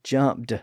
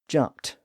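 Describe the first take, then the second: First: The word ends with a voiced D sound. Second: The word ends with a voiceless T sound. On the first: The speaker calls it wrong. "but it's not jumped" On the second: The speaker calls it right. "it's jumped with a T sound"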